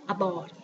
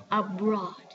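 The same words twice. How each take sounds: First: "abroad" without the r, like "abawd"; faulty "abroad" with a plain b; students' mispronunciation. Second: "abroad" with b and r blended; correct pronunciation. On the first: Retold or imitated. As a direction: imitate learners dropping the r in "abroad". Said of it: "all my students always says". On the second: Shown as a demonstration. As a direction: say "abroad" with a clear br cluster. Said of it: "We have B and R together".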